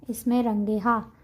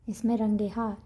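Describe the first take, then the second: First: Slow, careful "इसमें रंगे हा" with each word spaced out and a rise at the end; slow demo. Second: Said in the usual way. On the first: Shown as a demonstration. Teacher showing students the Persian plural, slow and careful. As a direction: spell out "इसमें रंगे हा" slowly for the learners. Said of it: "teacher demonstrates the Persian plural". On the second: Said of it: "teacher repeats at normal speed".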